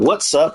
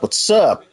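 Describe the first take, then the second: First: It is said as two separate syllables. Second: It is run together into one syllable. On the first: The speaker calls it wrong. "it's not what's up" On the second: The speaker calls it right. "It's one syllable"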